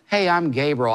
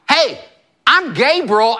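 First: The words are said in a plain, casual way. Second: The words are said in a strong, forceful way. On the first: A simple, ordinary introduction. "I think Gabriel didn't just say" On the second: An introduction full of authority and attitude. "I think it was more like, ... I think there was a lot of energy on it"

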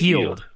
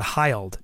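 First: The name's vowel sounds like 'ee'. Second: The name's vowel sounds like 'eye'. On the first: The speaker calls it right. "It's Buddy Hield" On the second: The speaker calls it wrong. "not Hyled"

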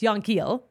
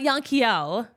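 First: The name is said with a plain English pronunciation. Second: The name is said with a French-sounding pronunciation. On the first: The speaker calls it right. "It's Yankiel" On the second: The speaker calls it wrong. "It's not Yankiel. He's not French"

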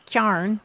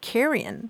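First: The word is said shortened, as kyarn. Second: The word is said in full, as carrion.

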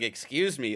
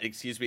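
First: It is said in a sassy, indignant tone. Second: It is said in a flat, plain tone.

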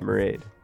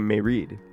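First: The name rhymes with the word parade. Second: The name is said as two parts, May Reed. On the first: This is how the name is really pronounced. The speaker calls it right. "But you say Marade, like parade" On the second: This is how a plain English reading of the spelling goes. The speaker calls it wrong. "plain English, it would say May Reed"

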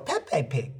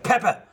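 First: The name is said like Pepe. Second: The name is said like Peppa. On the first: A small child mispronounces the name. The speaker calls it wrong. "she'll just go" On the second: An adult gives the correct name. The speaker calls it right. "I shake her, and I say"

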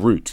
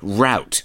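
First: It is said in a British accent. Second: It is said in an American accent.

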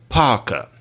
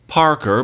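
First: The R sounds at syllable ends are dropped. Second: The R sounds at syllable ends are pronounced. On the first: "but Parker" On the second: "Not Parker"

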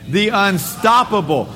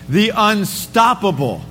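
No difference in how they are said.

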